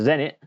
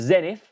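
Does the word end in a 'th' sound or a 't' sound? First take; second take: t; th. First: The word ends with a plain 't' sound. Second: The word ends with a 'th' sound.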